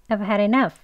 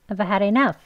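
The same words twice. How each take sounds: No difference in how they are said.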